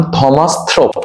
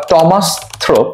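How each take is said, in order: First: "থমাস থ্রোপ", first name opening on a breath-released th; aspirated first sound. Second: "টমাস থ্রোপ", first name opening on a plain T; hard T. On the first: Gives two ways of saying the name. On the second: Offers the alternative pronunciation. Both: Shown as a demonstration.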